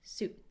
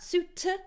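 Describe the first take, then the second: First: The final T is cut off, not released. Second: The final T is fully released with air. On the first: The speaker calls it right. "here we have a stop T" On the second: The speaker calls it wrong. "not suit"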